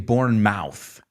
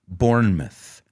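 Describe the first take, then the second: First: The last syllable is a full 'mouth' sound. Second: The last syllable is a reduced 'myth' sound. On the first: The speaker calls it wrong. "they don't say Bournemouth. Aunque es la palabra mouth" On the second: The speaker calls it right. "lo pronuncian myth"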